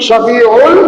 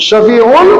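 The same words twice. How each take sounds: The two takes are said the same way.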